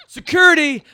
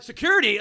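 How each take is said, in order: First: Very loud, high yell; retold call for security. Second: Loud, high question in disbelief; incredulous echo. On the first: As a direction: shout for the guards across the room. Casting people call for security. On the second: Retold or imitated. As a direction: throw the word back, stunned. He echoes their call in disbelief.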